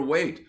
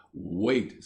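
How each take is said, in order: First: Wait thrown up high and louder; an indignant echo, wait; exasperated wait. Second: Said in the usual way. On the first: A narrator's reading. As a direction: scoff the word wait back at him, higher. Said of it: "said Ginger".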